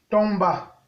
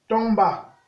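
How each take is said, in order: Both takes have the same delivery.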